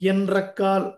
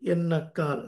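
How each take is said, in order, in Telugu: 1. మధ్య జంట nr గా ఉచ్చరించబడుతుంది. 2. మధ్య జంట nn గా ఉచ్చరించబడుతుంది. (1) "ఎన్రక్కాల్ అని చదవకూడదు" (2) "సాత్వికంగా పలకాలి"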